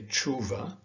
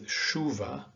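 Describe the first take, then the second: First: It begins with a hard 'ch' sound. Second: It begins with a soft 'sh' sound. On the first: The speaker calls it wrong. "Naturally, you would want to say chuva" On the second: The speaker calls it right. "in Portuguese, it is a soft sh, like in shop or shock. And so this is read as chuva"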